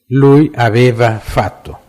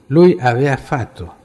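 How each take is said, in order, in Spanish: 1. El verbo se dice con el sonido de la 'v' central. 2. El verbo se dice sin el sonido de la 'v' central. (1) "correctamente debía ser" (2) "porque así se habla en su región"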